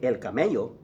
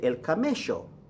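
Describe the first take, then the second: First: The double L sounds like an English y. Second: The double L sounds like an English sh. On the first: "They don't say el camello" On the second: "they like to say sho for the double L O"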